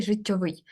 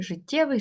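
First: ЖиттьовИЙ, an "o" in the middle and stress last; stress on ending. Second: ЖиттЄвий, higher, stressed on ТЄ; stem stress. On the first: Teacher contrasting paired words, життьовий stressed on its ending. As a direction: say життьовий landing on -ВИЙ. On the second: Teacher contrasting paired words, життєвий stressed on ТЄ. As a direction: lift життєвий with the weight on ТЄ. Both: Shown as a demonstration. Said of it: "різні наголоси".

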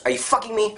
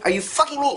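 First: Said in the usual way. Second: Higher incredulous repeat. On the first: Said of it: "repeated with rising emphasis". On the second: Shown as a demonstration. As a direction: pitch jumps up on the repeat, disbelieving. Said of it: "repeated louder and higher".

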